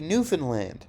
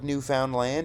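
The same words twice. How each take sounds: First: It is run together as one blended word. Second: It sounds like three separate words: new found land. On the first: It hides the literal meaning of the name. "It's going to be Newfoundland" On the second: It spells out what the name literally means. "make fun of people for pronouncing it like Newfoundland, even though that's what it is"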